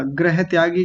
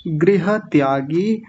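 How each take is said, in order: First: गृह त्यागी said as grah-tyagi, quickly joined; wrong first vowel. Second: गृह त्यागी slowly as gri-ha tyaa-gee; ri vowel. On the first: Teacher imitating common error, गृह त्यागी as grah-tyagi. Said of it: "जैसा कई बार बोल देते हैं". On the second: Teacher modelling for class, गृह त्यागी as gri-ha tyaagi. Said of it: "ग्रह नहीं होता". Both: Shown as a demonstration.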